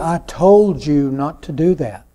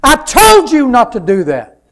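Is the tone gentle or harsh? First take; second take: gentle; harsh. First: It is said in a gentle, kind tone. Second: It is said in a harsh, irritated tone. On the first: The speaker is addressing someone lovingly. The speaker calls it right. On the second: The speaker is scolding someone in irritation. The speaker calls it wrong. "What's the difference? Same words, far different result"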